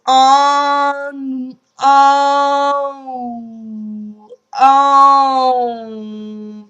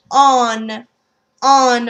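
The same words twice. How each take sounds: First: "on" slow and loud through pursed lips, no N; French nasal on. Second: "on" with the N sounded; English on. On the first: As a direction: push "on" into the nose. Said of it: "purse your lips ... close your throat". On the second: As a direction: say "on" the English way, ending on N. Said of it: "However, we pronounce the N". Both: Shown as a demonstration.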